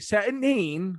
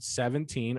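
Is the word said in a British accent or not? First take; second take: British; not British. First: It is said in an imitated British accent. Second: It is said in the speaker's ordinary accent.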